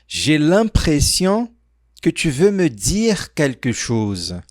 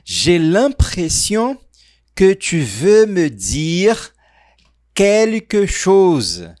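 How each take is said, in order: First: The sentence is spoken at a faster pace. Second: The sentence is spoken at a slower pace.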